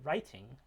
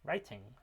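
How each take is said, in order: First: The middle t is a clear t. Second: The same.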